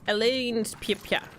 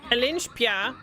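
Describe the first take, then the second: First: The name is pronounced in a Japanese style. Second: The name is pronounced in an English style. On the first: "the way Japanese pronounce" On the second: "isn't it in English?"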